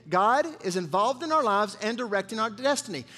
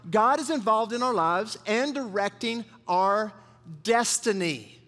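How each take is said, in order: First: Said in the usual way. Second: Slow, weighty dictation pace; slow and deliberate. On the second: Shown as a demonstration. Pastor dictating a key line to the congregation, slow and deliberate. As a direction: say it slowly so they can write it down. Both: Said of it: "good to write down".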